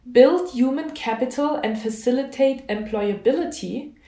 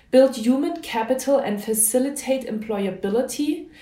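The two takes are said the same way.

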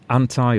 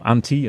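First: It is said in a non-British pronunciation. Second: It is said in a British pronunciation.

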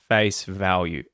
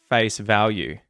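The two takes are said the same way.

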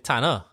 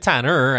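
First: It is said with a Trinidadian pronunciation. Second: It is said with an American-sounding pronunciation. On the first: "I say Tanner" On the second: "But I don't say Tanner"

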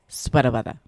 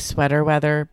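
First: It is said in a Boston accent. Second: It is said in a standard American accent. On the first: The speaker calls it right. "we all know it's pronounced sweater weather" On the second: The speaker calls it wrong. "they say sweater weather"

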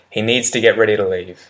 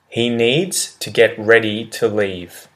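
First: The sentence is said quickly with reduced words. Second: The sentence is said at a normal, careful pace.

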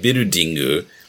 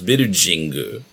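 First: The third syllable begins with a d sound. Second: The third syllable begins with a j sound. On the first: This is the modern rendering of the word. "nowadays Japanese would say birudingu" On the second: This is an older, dated rendering of the word. "With a j sound"

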